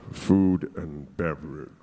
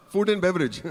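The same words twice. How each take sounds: First: Very low, slow mock British voice; fake British accent. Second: Said in the usual way. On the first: Nervous applicant answering his hotel interviewer, affected deep British accent. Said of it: "lowering my voice and, you know, speaking with this m-, mild British accent". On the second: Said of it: "drop that fake voice".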